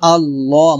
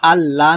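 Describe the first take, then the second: First: The l sound is heavy and full. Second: The l sound is light and thin. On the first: The speaker calls it right. "বলবো আল্লাহ মোটা করে" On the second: The speaker calls it wrong. "আল্লাহ না বলে"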